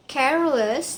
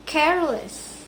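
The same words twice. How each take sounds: First: Said in the usual way. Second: "careless" as CARE-less, falling at the end; stress on first syllable. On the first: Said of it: "Number two". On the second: Shown as a demonstration. Student demonstrates suffix keeping stress, first-syllable stress in "careless". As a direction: lean on CARE in "careless", let the ending drop. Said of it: "the stress on the first syllable".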